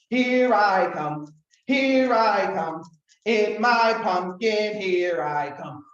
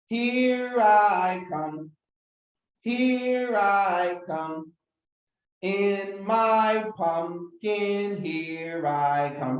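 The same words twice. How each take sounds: First: It is said very fast. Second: It is said a little faster.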